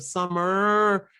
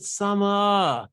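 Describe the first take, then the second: First: "summer" with the final R held; American R. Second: "summer" as a long "summaah", no R; higher, stretch the end of "summer"; stretched vowel. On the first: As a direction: hold the R ending of "summer". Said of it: "instead of". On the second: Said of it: "they would stretch it". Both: Shown as a demonstration.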